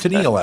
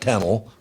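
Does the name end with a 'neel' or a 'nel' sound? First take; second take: neel; nel. First: The name ends with a long 'neel' sound. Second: The name ends with a short 'nel' sound. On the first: The speaker calls it right. "Her name's Tennille, actually" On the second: The speaker calls it wrong. "not Tennel"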